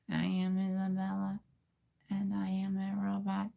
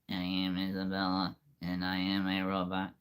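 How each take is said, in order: First: It is said in a girl's robot voice. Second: It is said in a put-on robot voice.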